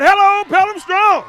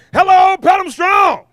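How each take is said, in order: First: Even bigger rally call, high and loud; louder crowd hype shout. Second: Loud, high rally call to the crowd; crowd hype shout. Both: Acted. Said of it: "we can do better than that".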